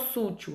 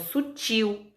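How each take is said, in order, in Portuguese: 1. A tônica está na primeira sílaba. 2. A tônica está na última sílaba. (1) "Eu não falo sútil" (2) "eu falo sutil"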